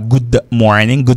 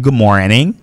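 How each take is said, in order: First: The D at the end of good is pronounced. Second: The D at the end of good is silent. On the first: The speaker calls it wrong. "on dit pas good morning" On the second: The speaker calls it right. "le D ne se prononce pas, on dit good morning"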